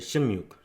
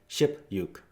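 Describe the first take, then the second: First: An m sound comes before yuk. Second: A clear p sound comes before yuk. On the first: The speaker calls it right. "they change it just a little bit to make it easier" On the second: The speaker calls it wrong. "if you just read it just like how it is"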